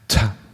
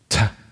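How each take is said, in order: First: The t has a strong puff of breath. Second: The same.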